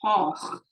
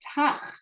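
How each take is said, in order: First: The vowel sounds like aw. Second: The vowel sounds like ah.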